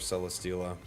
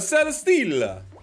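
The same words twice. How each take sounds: First: It is said in a plain, ordinary accent. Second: It is said in a comical Italian accent.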